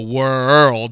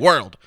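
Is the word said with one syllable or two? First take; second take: two; one. First: The word is stretched into two syllables. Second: The word is said as one syllable. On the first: The speaker calls it wrong. "then that's maybe two. But we don't say it like that" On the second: The speaker calls it right. "We say world. It's one syllable"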